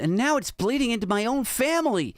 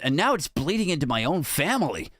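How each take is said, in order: First: The voice is higher, not deepened. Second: The voice is pitched deeper than normal. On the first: The quote is read as if from a woman. The speaker calls it wrong. "I thought it was lady" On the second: The quote is read as if from a man. The speaker calls it right. "maybe I should do a deeper voice"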